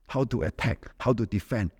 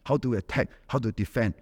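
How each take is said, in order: Both takes have the same delivery.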